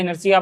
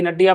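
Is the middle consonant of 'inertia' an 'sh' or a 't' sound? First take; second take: sh; t. First: The middle consonant is an 'sh' sound. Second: The middle consonant is a 't' sound. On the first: "इनर्शिया पढ़ता है कोई" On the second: "इनर्टिया पढ़ता है, अपनी अपनी pronunciation है"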